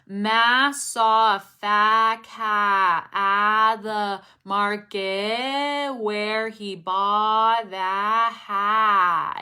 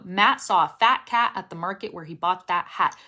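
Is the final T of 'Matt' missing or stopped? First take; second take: missing; stopped. First: The final T sounds are not stopped. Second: The final T sounds are sharply stopped. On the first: The speaker calls it wrong. "you're not really stopping the sound" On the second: The speaker calls it right. "Punch the words so that they end"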